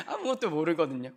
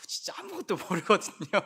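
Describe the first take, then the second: First: Said in the usual way. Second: Laughing through the line; amused laugh. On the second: Real, not acted. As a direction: chuckle as you say it. Laughing at young people's ignorance.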